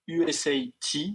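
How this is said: The letters are named with English pronunciation. "en bon anglais"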